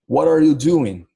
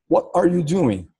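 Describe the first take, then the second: First: It is said in a relaxed American accent. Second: It is said carefully, without an American accent.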